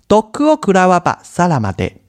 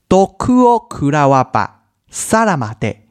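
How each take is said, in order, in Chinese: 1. 这句话说得比较快。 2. 这句话说得比较慢。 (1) "我们再念快一点看看" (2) "我们再念念看哦"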